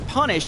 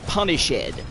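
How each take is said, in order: First: The ending is clipped, giving two syllables. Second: The ending is sounded separately, giving three syllables. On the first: The verse needs one fewer syllable here. "it's going to be punish apostrophe D" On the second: The verse needs the extra syllable here. "he wants you to pronounce it punished"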